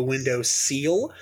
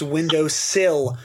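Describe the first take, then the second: First: "seal" with a long ee; seal pronunciation. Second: "sill" with a short i; sill pronunciation. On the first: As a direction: say "seal" to rhyme with feel. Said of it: "the pronunciation of". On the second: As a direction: say "sill" to rhyme with hill. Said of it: "I heard it pronounced window sill". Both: Shown as a demonstration.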